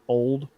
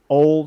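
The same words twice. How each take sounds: First: The word ends with a clear d sound. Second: The word ends without a d sound. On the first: It is the ordinary word old. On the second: It is the nickname Ole, not the word old.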